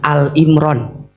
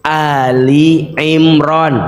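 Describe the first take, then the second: First: The first word is one syllable, Al. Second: The first word is two syllables, Ali. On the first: It means Imron alone. The speaker calls it wrong. "jangan Al Imron" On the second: It means the family of Imron. The speaker calls it right. "bacanya harus Ali Imron"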